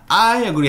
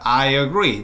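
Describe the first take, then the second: First: The stress falls on the word I. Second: The stress falls on the word agree. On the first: The speaker calls it wrong. "하시면 안 됩니다. 내가 동의한다고 짜증내는 것 같아요" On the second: The speaker calls it right. "여러분 주어보다 동사가 훨씬 중요합니다"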